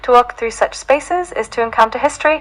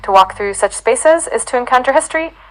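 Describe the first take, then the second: First: It is read in a non-American accent. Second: It is read in an American accent.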